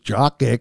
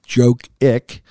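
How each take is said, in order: First: The first vowel is a short 'ah' sound. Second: The first vowel is a long 'oh' sound. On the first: "The other one is Jock Ick, and I don't think I'm not going to go with that one" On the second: "One would be like Joke Ick"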